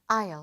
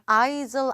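First: The word is said with no s sound. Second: The word is said with an audible s sound. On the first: The speaker calls it right. "aisle 아니고 뭐라고요? aisle" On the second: The speaker calls it wrong. "S 소리 들리면 안 됩니다. aisle 아니에요"

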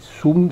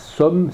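First: The vowel is an oo sound. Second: The vowel is not an oo sound. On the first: The speaker calls it right. "c'est sum, c'est-à-dire avec un ou" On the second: The speaker calls it wrong. "c'est pas somme"

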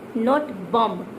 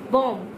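First: The word ends with an audible b sound. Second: The word ends on m with no b sound. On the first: The speaker calls it wrong. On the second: The speaker calls it right. "Did you notice I pronounce bomb"

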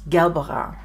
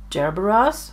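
First: It is pronounced the German way. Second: It is pronounced the English way. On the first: "so that's how it sounds in German" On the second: "I don't know if that's how you say it"

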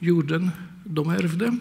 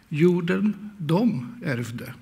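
First: The pronoun is not stressed. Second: The pronoun is stressed. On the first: It names the land that was inherited. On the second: It was they, others, who inherited the land.

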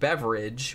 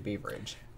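First: The first vowel is a short 'eh' sound. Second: The first vowel is a long 'ee' sound. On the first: The speaker calls it wrong. "they kept saying Beveridge, which is what it looks like" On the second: The speaker calls it right. "but I think it's actually Beaveridge"

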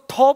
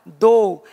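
First: The word begins with a voiceless aspirated 't' sound. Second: The word begins with a voiced 'd'-like sound. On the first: The speaker calls it wrong. "लोग इसको थो पढ़ लेते हैं। थो नहीं पढ़ना है" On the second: The speaker calls it right. "इसका साउंड क्या है, बस इतना"

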